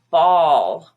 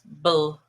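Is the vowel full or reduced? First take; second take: full; reduced. First: The vowel is a full, open vowel. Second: The vowel is reduced to a weak vowel. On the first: "which is olive" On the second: "ball becomes bull"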